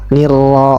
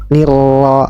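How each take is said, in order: The two takes are said the same way.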